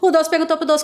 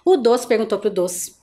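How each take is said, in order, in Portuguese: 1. É dita muito rápido. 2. É dita devagar e com cuidado. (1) "fazer bem rápido" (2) "assim devagar é facinho"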